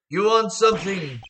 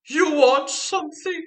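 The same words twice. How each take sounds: First: The voice sounds low and husky. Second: The voice sounds haughty and lofty. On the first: "I'm not good at doing husky" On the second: "I give them like that haughty"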